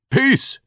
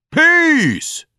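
First: Crying out. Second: Shouting. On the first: Repeated cry building up. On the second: Repeated cry at its peak. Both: Acted.

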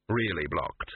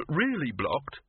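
First: "Really blocked." low and falling, flatly final; flat confirmation. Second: "Really blocked?" rising sharply on "blocked" in disbelief; disbelieving question. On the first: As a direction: answer "Really blocked." much lower with a dead-flat fall. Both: Acted. Unbelieving question, then flat answer.

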